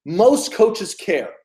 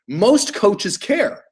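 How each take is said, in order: First: Slow emphasis. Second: Very slow emphasis. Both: Shown as a demonstration. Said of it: "Write that down".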